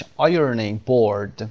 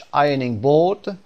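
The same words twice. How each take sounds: First: American "ironing board", both R sounds voiced; slow, careful American English demonstration; American pronunciation. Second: British "ironing board", both R sounds dropped; slow, careful British English demonstration; British pronunciation. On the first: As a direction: say it American with clear Rs in both words. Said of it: "تلفظ امریکنش". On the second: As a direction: say it British, "eye-uh-ning bawd". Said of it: "تلفظ اول بریتیش". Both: Shown as a demonstration.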